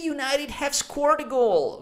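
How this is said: It is said in a thrilled, excited tone. The speaker supports the team and is delighted. "much more excited"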